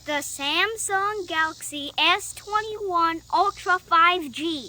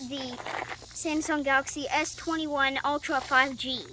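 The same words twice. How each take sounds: First: It is said more slowly. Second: It is said very fast.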